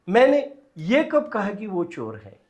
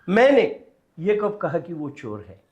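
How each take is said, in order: First: The stress is on ये. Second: The stress is on मैंने.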